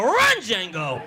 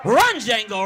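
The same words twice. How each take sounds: First: Laughing as he calls it; laughing cheer. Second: Louder cheering call; mock cheer. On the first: Retold or imitated. Comic repeating his cheer, laughing. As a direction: call it through laughter. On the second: Comic cheering the suspect on, loud call. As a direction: egg the runner on.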